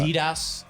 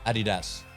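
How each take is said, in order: First: The brand name is said the American way. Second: The brand name is said the German way. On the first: The speaker calls it wrong. "Adidas is not correct. That's how Americans pronounce it" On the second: The speaker calls it right. "Adidas is how you pronounce it. It is German"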